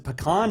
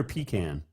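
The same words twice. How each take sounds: First: Pecan said puh-KAHN; alternate pronunciation. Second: Pecan said PEE-can; alternate pronunciation. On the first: Radio host asking coach which is right, pecan said puh-KAHN. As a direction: say pecan with a short first syllable and "kahn". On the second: Radio host asking coach which is right, pecan said PEE-can. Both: Shown as a demonstration. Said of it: "is it pecan or pecan?".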